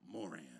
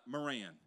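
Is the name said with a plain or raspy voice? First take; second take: raspy; plain. First: The name is said with a slight rasp. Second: The name is said with a plain, smooth voice. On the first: The speaker calls it right. "With a little rasp in your voice" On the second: The speaker calls it wrong. "Not Moran"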